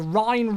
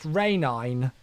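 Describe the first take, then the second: First: The river name is said the usual way. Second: The river name is said an invented way. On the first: "the Rhine River" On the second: "I managed to convince him that the Rhine River was pronounced Rhenine"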